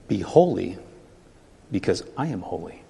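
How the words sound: It sounds warm and inviting.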